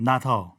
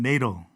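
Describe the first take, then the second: First: It is said with a British accent, crisp t. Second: It is said with an American accent, flapped t. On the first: "영국식 발음은" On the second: "미국식 발음은"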